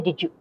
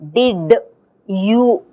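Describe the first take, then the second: First: The d and y merge into a j sound. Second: The d and y stay separate, no j sound. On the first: The speaker calls it right. "we say did you, there's a j" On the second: The speaker calls it wrong. "we don't say did you, we don't speak like that"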